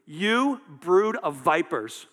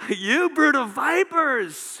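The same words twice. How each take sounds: First: Slow, loud condemnation; measured, forceful scolding; harsh rebuke. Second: High, drawn-out preacher's shout; loud, soaring denunciation; harsh shouted rebuke. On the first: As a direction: draw out each word as a brutal accusation. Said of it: "it's pretty brutal". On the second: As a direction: bellow the accusation slowly at full force. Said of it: "that's really harsh". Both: Acted.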